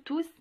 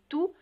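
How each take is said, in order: First: The word ends with an audible S sound. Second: The word ends without any S sound. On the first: The speaker calls it wrong. "On ne dit pas du tout tous" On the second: The speaker calls it right. "mais tout quand il s'agit d'un déterminant"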